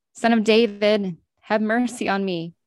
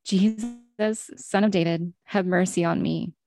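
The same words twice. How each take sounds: First: Mild louder shout. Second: Understated cry for mercy, at reading volume; restrained storybook call; mild narrated shout. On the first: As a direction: call out more insistently, still in a reading voice. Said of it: "he only shouted louder". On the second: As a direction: call out lightly within the story. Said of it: "he began to shout". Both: A narrator's reading.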